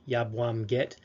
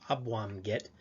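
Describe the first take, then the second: First: The phrase begins with a y sound. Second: The phrase begins without a y sound. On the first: "Yabwam get means it's warm" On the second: "Some folks will drop the Y"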